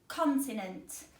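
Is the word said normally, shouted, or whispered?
normally. The word is said at normal volume. "I'm going to say the word again"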